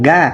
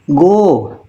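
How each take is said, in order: First: The vowel is an open 'a'. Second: The vowel is a rounded 'o'. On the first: The speaker calls it wrong. "jangan ga" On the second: The speaker calls it right. "Go, jangan ga"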